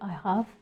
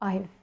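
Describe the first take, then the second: First: Both words are said in full. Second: The words are shortened into one syllable. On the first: "when you say I have" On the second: "it becomes I've"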